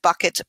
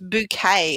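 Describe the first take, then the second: First: It is said like the everyday word bucket. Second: It is said like the French-sounding word bouquet.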